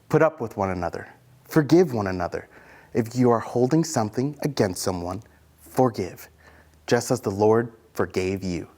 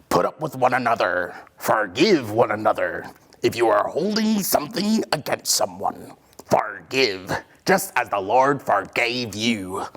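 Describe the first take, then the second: First: It is said in a normal voice. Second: It is said in a pirate voice.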